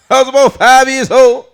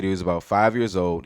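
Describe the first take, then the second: First: Loud, high-pitched comedian impression; Bernie Mac. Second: Said in the usual way. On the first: Comic rereads the quote as an adult, loud high impression. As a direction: belt it out as a brash adult comic. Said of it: "reread it as Bernie Mac's voice". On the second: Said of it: "I feel like it's a beautiful quote".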